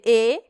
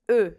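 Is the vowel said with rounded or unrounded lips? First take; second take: unrounded; rounded. First: The vowel is said with spread, unrounded lips. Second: The vowel is said with rounded lips. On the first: "Ao invés de fazer E" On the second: "a gente arredonda o lábio e faz o E com o lábio arredondado"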